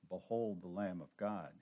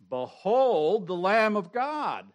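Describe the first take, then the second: First: It is said plainly, without excitement. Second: It is exclaimed with strong excitement.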